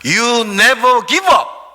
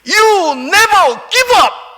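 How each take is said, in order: First: It is said somewhat louder than before. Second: It is said in a loud voice.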